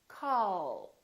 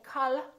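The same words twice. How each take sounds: First: The final L is soft and prolonged. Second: The final L is short and released. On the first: The speaker calls it right. "the American L is prolonged. It's softer and longer" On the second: The speaker calls it wrong. "So we don't say call"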